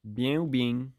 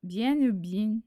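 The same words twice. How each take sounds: First: Demonstrated Marseille accent. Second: Slow learner's try at Marseille French; nearly Marseille accent, slowed down; attempted Marseille accent. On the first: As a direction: model Marseille-accented French. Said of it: "but with a Marseille accent". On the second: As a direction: carefully copy a Marseille accent. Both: Shown as a demonstration.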